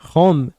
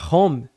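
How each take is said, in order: First: The word begins with a breathy h sound. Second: The word begins with a vowel, no h sound. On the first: It follows the English pronunciation. The speaker calls it right. "a pronúncia certa é home" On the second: It is read as a Portuguese reader would. The speaker calls it wrong. "ela lê a palavra home"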